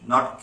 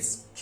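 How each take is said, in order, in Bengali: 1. K ধ্বনিটি বাতাসের ঝলক ছাড়া বলা হয়। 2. K ধ্বনিটি বাতাসের ঝলক সহ বলা হয়। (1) "that we wrongly pronounce as K" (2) "একটা এ হস্যি, এই এই ধরনের একটা টান আসবে"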